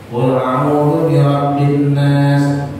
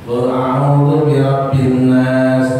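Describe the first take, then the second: The two takes are said the same way.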